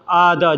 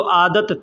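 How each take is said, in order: First: The word ends with a soft h sound. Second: The word ends with a clear t sound. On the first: It just means habit. "अरबी में लिखा रहता है आदह" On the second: It means there was a habit. "अगर हम आदत बोल देंगे तो आदत थी"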